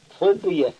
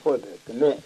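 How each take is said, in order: First: The name is said in its local dialect form. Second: The name is said in its official form. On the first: This is how locals actually say it. "men i uttalet är det Fröböke" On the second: This is the name's formal version. "Den kallas egentligen Fröböke"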